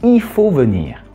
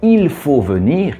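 First: Sounds of the phrase are dropped and run together. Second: Every sound of the phrase is fully pronounced.

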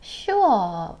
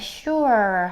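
First: The word ends without a clear r sound. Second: A deep r sound is heard at the end. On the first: "영국식 발음으로 하면은 sure 이 정도 소리가 나요" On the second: "미국식으로 발음한다면 sure 하고 이렇게 r 소리를 깊게 내는데"

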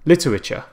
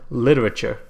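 First: It is said in a careful, posh British accent. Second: It is said in an American accent. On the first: "if you go and say it properly" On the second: "Even an American accent"

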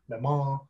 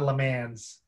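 First: The final S is silent. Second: The final S is sounded. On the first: The speaker calls it right. "the French pronunciation means you don't really pronounce the S" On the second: The speaker calls it wrong. "It's not Le Mans"

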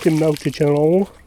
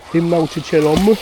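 First: The ending is pronounced as a nasal -ą. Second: The ending is pronounced as a clear -om. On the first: The speaker calls it wrong. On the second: The speaker calls it right.

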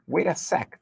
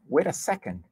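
First: The last word is clipped to one syllable. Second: The last word is said in full, two syllables. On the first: This is a casual form used among friends. "numa forma de informal, né, contraída aí, abreviada" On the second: This is the complete standard form. "Na verdade é wait a second"

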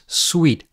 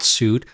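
First: The word sounds like 'sweet'. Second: The word sounds like 'suit'. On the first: The speaker calls it right. "you pronounce it as suite" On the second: The speaker calls it wrong. "not suit"

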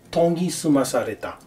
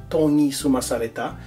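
The two takes are said the same way.

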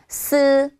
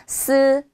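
The two takes are said the same way.

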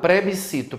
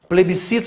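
First: The word begins with the sound pre. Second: The word begins with the sound ple.

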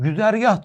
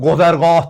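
First: The first vowel is a rounded front 'ü'. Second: The first vowel is a back 'o'. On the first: This is how Turks say it. "biz güzergah diyoruz" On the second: This is how Iranians say it. "İranlılara soruyorsun gozergah diyorlar"

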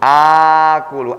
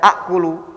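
First: The first vowel is long, with no glottal stop. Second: The first vowel is short, followed by a glottal stop. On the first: The speaker calls it right. "tapi dibaca akulu" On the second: The speaker calls it wrong. "Dan tidak dibaca akulu"

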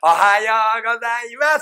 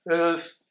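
First: The greeting is said clearly, like a small child. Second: The greeting is mumbled and hard to understand.

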